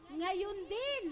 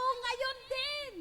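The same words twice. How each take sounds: First: Said in the usual way. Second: High and loud, ngayon punched; congregation echo. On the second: Shown as a demonstration. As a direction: call out "Ngayon din" high and loud with the stress on ngayon. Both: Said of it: "Pakisabi nga po".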